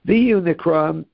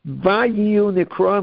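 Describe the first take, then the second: First: The first word begins with a 'vi' sound. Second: The first word begins with a 'va' sound. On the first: It describes something that will happen in the future. The speaker calls it wrong. "is something else, has a different meaning" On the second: It describes something that happened in the past. The speaker calls it right. "is correct"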